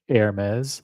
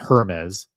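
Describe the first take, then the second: First: The name is said with French pronunciation. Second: The name is said with non-French pronunciation. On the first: The speaker calls it right. "I think it's the French pronunciation is Hermes" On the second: The speaker calls it wrong. "it's not Hermes"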